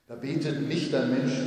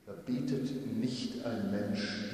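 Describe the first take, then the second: First: "nicht" punched, louder; emphatic repeat, "nicht" loudest; stress on nicht. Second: Said in the usual way. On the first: Shown as a demonstration. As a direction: hit the word "nicht" hard.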